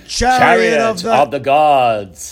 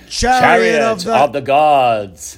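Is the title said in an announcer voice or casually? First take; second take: announcer; announcer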